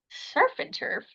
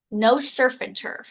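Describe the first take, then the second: First: "Surf and turf?" whispered high, puzzled; incredulous echo. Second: Said in the usual way. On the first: Retold or imitated. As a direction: echo "Surf and turf?" back in disbelief, breathy and raised. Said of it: "And I'm like". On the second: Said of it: "she goes".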